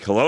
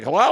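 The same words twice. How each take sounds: First: Said in the usual way. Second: Higher-pitched parrot echoing a hello; talking parrot. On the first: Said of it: "he's like". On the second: Retold or imitated. Parrot answering the man who greeted it, mimicking parrot voice. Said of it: "And the parrot's like".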